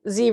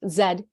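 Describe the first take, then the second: First: The letter is said as 'zee'. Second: The letter is said as 'zed'. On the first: "Z related for for you Americans" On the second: "in the colonies or whatever in the Commonwealth"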